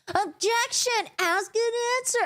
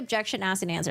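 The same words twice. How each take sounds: First: It is said in a whiny, annoying tone. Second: It is said in a plain, neutral tone.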